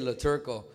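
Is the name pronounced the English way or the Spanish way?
English. The name is pronounced with English sounds. It is how the name is normally said. "I just say La Turco"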